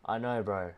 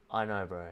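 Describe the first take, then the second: No difference in how they are said.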